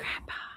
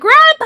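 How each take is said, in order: First: It is said softly and faintly. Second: It is said loudly, like a shout.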